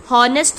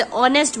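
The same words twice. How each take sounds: First: हॉनेस्ट with the h wrongly voiced at the start; h sounded. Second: ऑनेस्ट starting on the O vowel, no h; silent h. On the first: Teacher showing students what not to say, हॉनेस्ट with sounded h. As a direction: say हॉनेस्ट with an audible h before the O. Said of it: "थोड़ी ना बोलते". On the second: Teacher correcting students' pronunciation, ऑनेस्ट with silent h. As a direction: drop the h in ऑनेस्ट and open on O. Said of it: "ऑनेस्ट बोलते". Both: Shown as a demonstration.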